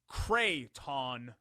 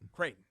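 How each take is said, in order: First: The name is said with two clear syllables. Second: The name is squeezed, without two clear syllables. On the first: The speaker calls it right. "There's a there's two syllables there" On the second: The speaker calls it wrong. "you're saying it like Crayola"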